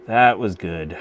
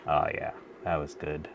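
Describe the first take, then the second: First: Louder, a proud repeat; pleased emphasis. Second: Said in the usual way. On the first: Real, not acted. Streamer repeats her praise of the joint, louder and proud. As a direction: say it again with more punch.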